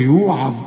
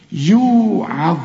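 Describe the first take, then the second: First: Mistaken يوعظ with the ع thickened like the ظ; lower, warning example of over-heavy يوعظ; wrong heavy ayn. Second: Slow يوعظ, long يو, light ع before heavy ظ; correct light ayn. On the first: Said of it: "اوعى تقول لي". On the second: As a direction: draw out the first syllable of يوعظ. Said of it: "الظاهر المفخمة". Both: Shown as a demonstration.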